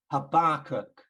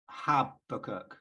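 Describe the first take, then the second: First: Habakkuk said ha-BAK-kuk, stress on the second syllable; louder ha-BAK-kuk, hit the middle syllable. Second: Habakkuk said HA-bakkuk, stress on the first syllable; slow HAB-a-kuk, first syllable stressed. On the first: Speaker demonstrates the West Midlands way, second syllable stressed. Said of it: "on the second syllable". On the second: Speaker demonstrates how he grew up saying the name, first syllable stressed. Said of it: "like the emphasis on the first syllable". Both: Shown as a demonstration.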